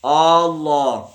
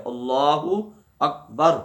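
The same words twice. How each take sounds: First: اللہ with the first a drawn out very long and slow; stretched alif. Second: اللہ اکبر slow, every sound clean, no vowel stretched; clear correct takbir. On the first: Teacher showing the wrong way to say اللہ, alif dragged out. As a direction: drag the opening alif of اللہ, a wrong example. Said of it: "اس کو کھینچ لیا". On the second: Teacher modelling the correct takbir for the prayer. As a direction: say اللہ اکبر plainly and carefully. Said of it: "صاف صاف کہنا ہے اور سیدھے طریقے سے". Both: Shown as a demonstration.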